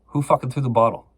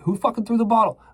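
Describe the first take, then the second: First: A mock cop barking the question, a bit louder; cop demanding. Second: Much higher, pitched-up retold yell at the wall; the cop losing it, pushing the pitch way up. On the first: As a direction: retell the cop's demand with some edge. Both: Cop interrogating him, retold.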